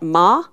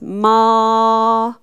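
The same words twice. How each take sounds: First: The vowel is held short. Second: The vowel is held long. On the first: The speaker calls it wrong. "It's not ma" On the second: The speaker calls it right. "this A is going to have a long sound"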